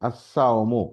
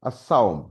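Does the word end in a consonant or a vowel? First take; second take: vowel; consonant. First: The word ends with a short final u vowel. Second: The word ends abruptly on the m consonant. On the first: "মিমের উপরে একটা পেশ" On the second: "ওয়াকফ করলে কি হয়?"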